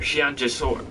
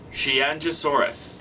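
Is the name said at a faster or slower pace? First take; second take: faster; slower. First: The name is said at a faster pace. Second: The name is said at a slower pace.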